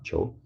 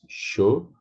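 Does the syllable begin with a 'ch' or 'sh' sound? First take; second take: ch; sh. First: The syllable begins with a hard ch sound. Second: The syllable begins with a soft sh sound. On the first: The speaker calls it wrong. "Sho is not cho" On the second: The speaker calls it right. "it's sho"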